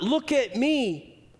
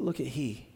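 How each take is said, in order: First: Raised, slow and showy look at me; "Look at me" drawn out high and proud; self-important. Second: "Look at he" said low and soft; pointing away from yourself, quietly; humble. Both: Shown as a demonstration.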